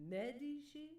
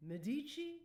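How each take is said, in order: First: Medici as a raised question, MED-ee-shee; stress on MED. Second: Medici higher and louder, meh-DEE-chee, as a question; stress on DEE. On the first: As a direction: punch the first syllable of Medici. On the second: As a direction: punch the second syllable of Medici. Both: Shown as a demonstration. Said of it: "Which one is the accent on".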